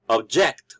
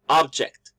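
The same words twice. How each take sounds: First: The stress is on the second syllable. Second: The stress is on the first syllable. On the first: "we are stressing the second syllable" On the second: "the stress is in the first syllable"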